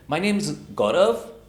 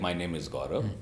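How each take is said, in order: First: The pitch rises at the end. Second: The pitch falls and the last word fades. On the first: The speaker sounds unsure of the statement. "what is called as the upward inflection" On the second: The last word can barely be understood. "go on the downward inflection"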